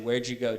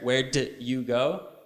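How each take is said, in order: First: Did is reduced and linked into you. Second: Did and you are said in full. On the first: The speaker calls it right. "We say" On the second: The speaker calls it wrong. "We will never say"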